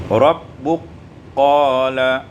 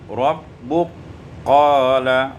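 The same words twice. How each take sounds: Both takes have the same delivery.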